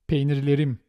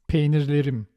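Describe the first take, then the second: The two takes are said the same way.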